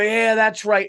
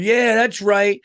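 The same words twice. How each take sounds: First: Mocking the parents' loud, high whoop of approval; rowdy parents cheering. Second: Mocking a rowdy dad's loud, high cheer. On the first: Parents cheering their kid's screaming, loud mock whoop. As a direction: egg the screaming kid on, hammed-up. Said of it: "they would go". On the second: Dad at the party cheering his screaming kids, loud mock whoop. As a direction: ham up a loudmouth egging kids on. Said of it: "this one dude was going".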